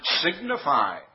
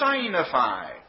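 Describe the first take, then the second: First: The first syllable is said as sig. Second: The first syllable is said like sign. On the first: The speaker calls it right. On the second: The speaker calls it wrong.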